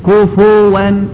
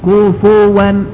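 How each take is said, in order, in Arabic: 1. يأتي بعد f صوت u قصير. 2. يأتي بعد f صوت u قصير.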